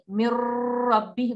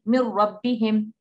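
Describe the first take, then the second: First: The nasal sound is held long before the r. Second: The nasal sound disappears straight into the r. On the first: The speaker calls it wrong. "We don't say mir rabbihim. We don't hold it" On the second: The speaker calls it right. "We just say mir rabbihim, and the noon sound disappears"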